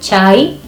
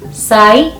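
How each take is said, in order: First: The word begins with a ch sound. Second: The word begins with an s sound. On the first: This is the Nyeri way of saying it. "part of the Nyeri County, they will pronounce C as cha" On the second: This is the Murang'a way of saying it. "from Murang'a, where I come from, we say sa"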